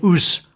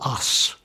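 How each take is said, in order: First: It is said in a broad Lancashire accent. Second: It is said in a non-Lancashire accent. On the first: This is how the local people speak. "He said us" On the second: This is not how the local people speak. "not us"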